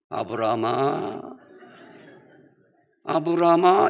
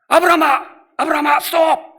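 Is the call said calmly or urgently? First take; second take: calmly; urgently. First: It is called out calmly and slowly. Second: It is called out urgently and fast.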